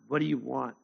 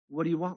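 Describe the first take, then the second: First: It sounds curt and irritated. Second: It sounds willing and eager to serve. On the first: The speaker is bothered by the interruption. The speaker calls it wrong. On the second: The speaker is ready to do whatever is asked. The speaker calls it right. "More like"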